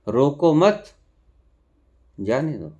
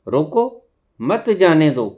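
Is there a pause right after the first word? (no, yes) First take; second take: no; yes. First: There is no pause right after the first word. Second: There is a pause right after the first word. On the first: It is an order to let someone go. "और दूसरा" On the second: It is an order to stop someone. "रोको के ऊपर हम full stop लगा दिया, coma लगा दिया, ठहर गए हम।"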